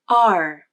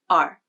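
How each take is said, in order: First: The vowel is long, loud, gliding up then down. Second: The vowel is short, lower and flat in pitch. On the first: "the pitch of the voice glides up and then down" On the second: "the pitch of the voice is lower, and the vowel is said faster and with a flatter shape"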